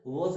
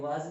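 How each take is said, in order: First: Was said correctly with a rounded o, like woz; correct pronunciation. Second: Was said wrongly with an open a, like waz; wrong pronunciation. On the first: Teacher showing students the right way: was said as woz. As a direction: give was the proper woz sound. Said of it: "W A का वो होता है". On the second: Teacher showing students the common mistake: was mispronounced as waz. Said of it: "बहुतों को सुना है ये was कहते हैं". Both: Shown as a demonstration.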